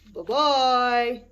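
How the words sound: It is said in a big, gruff voice.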